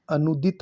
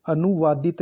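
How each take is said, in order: First: अनुदित with no "waa": "a-nu-dit"; correct form. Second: अनुवादित with "waa" before "dit"; wrong form. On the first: Teacher giving the right form: अनुदित as "a-nu-dit". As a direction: say अनुदित in three beats. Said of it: "होता है". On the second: Teacher rejecting the wrong form: अनुवादित with "waa". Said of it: "नहीं". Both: Shown as a demonstration.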